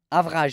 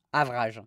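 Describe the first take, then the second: First: "Avrage" said the French way, louder, stress on the last syllable; "Avrage" in a broad French accent, louder; thick French accent. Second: "Avrage" said the French way, avrahzh with stress on the end; "Avrage" in a broad French accent; thick French accent. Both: Shown as a demonstration. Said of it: "Avec l'accent bien français".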